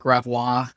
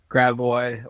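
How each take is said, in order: First: It is said the way outsiders say it. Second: It is said the way locals say it.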